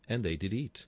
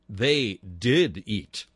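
First: The word did is not specially stressed. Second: The word did is strongly stressed.

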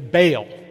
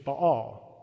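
First: It is said with an English pronunciation. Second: It is said with a Hebrew pronunciation. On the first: "Or as we English say" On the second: "The Hebrew pronunciation is Baal"

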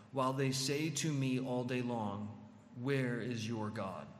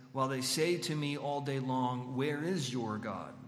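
Both takes have the same delivery.

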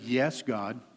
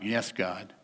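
First: It is said willingly and sincerely. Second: It is said grudgingly and reluctantly.

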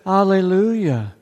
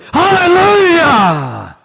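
First: It is said flatly, without excitement. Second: It is said with joyful excitement.

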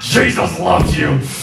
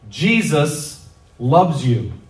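First: It is said reluctantly and insincerely. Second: It is said warmly and sincerely.

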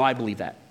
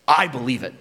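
First: It is said in a casual, dismissive way. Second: It is said with earnest, heartfelt conviction.

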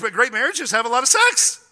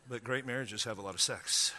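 First: It is said with passion and energy. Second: It is said calmly, without any passion.

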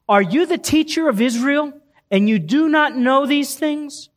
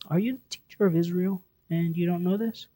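First: It is said in a harsh, rebuking tone. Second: It is said in a soft, gentle tone.

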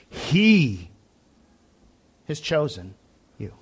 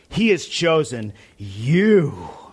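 First: The stress is on the word he. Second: The stress is on the word chosen.

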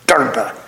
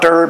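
First: The word ends in a vowel unlike ee. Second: The word ends with no final vowel. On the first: The speaker calls it right. "The E is pronounced, but not as an E" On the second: The speaker calls it wrong. "It's not Derb"

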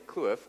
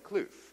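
First: It is said with an Afrikaans pronunciation. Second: It is said with a local English pronunciation. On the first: The speaker knows Afrikaans. "are they testing if I know Afrikaans? Because then I'll say kloof" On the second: The speaker is a local. "are they testing to see if I'm a local? Because then I'll say kloof"

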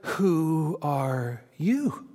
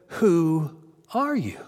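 First: The word "you" is stressed. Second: The word "are" is stressed. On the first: "Or was it" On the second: "Or was it"

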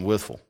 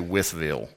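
First: The name ends with a reduced 'ful' sound. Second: The name ends with a clear 'ville' sound. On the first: The speaker calls it right. "We live in Withful" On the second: The speaker calls it wrong. "Just like you dare not say Withville"

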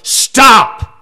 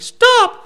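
First: The voice sounds firm and authoritative. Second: The voice sounds weak and timid. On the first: The speaker calls it right. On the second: The speaker calls it wrong.

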